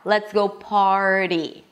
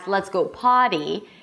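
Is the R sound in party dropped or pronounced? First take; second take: pronounced; dropped. First: The R is held out before the T. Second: The R is dropped, sounding like potty. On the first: The speaker calls it right. "hold out the R" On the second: The speaker calls it wrong. "if it still comes out as let's go potty"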